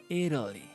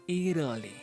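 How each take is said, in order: The two takes are said the same way.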